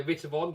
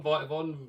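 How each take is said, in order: First: Vitavon with "vit" as in bit; short-i pronunciation. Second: Vitavon with "vite" as in bite; long-i pronunciation. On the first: Guessing at a brand name, Vitavon said with short i. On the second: Guessing at a brand name, Vitavon said with long i. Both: Shown as a demonstration.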